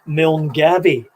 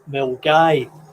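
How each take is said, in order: First: It is pronounced the way outsiders say it. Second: It is pronounced the way locals say it. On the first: The speaker does not know the place. The speaker calls it wrong. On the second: The speaker knows the place. The speaker calls it right.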